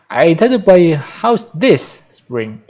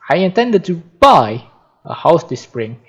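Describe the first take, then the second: First: The stress is on the words this spring. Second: The stress is on the word buy.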